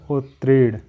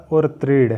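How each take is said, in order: First: "उत्तीर्ण" as ut-treed, no r before the t; correct pronunciation demo. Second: "उत्तीर्ण" with an extra r, as ur-treed; wrong pronunciation demo. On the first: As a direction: start "उत्तीर्ण" on a clean ut. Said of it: "रा double है". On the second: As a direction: put an r before the t in "उत्तीर्ण". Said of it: "ये गलत है". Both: Shown as a demonstration.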